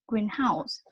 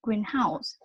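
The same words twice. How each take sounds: First: The main stress falls on the second part. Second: The same.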